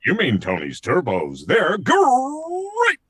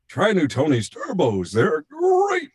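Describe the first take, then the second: First: Rolled, growling GREAT leaping up high; big cartoon tiger mascot catchphrase; Tony the Tiger. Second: Put-on old Tony the Tiger, voice cracking high; Thurl Ravenscroft. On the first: Showing the producers he can do it, tiger mascot voice. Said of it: "And I said". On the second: Retelling the old actor's failing tagline take, cracking voice. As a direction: imitate an ageing mascot actor straining up on GREAT. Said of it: "it was cracking".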